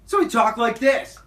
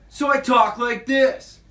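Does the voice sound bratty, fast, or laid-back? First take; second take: fast; bratty. First: A sped-up, host-like twenty-year-old's voice. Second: A bratty, obnoxious twelve-year-old boy's voice.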